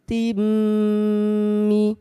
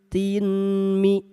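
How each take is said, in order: First: The n merges into a held nasal m. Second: The n is said separately before the m. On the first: The speaker calls it right. "n-nya masukkan ke mim" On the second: The speaker calls it wrong. "yang asalnya tin mi"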